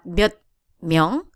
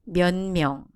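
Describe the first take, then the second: First: The first word's final consonant is hard. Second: The first word's final consonant is softened. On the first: The speaker calls it wrong. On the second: The speaker calls it right. "it will be"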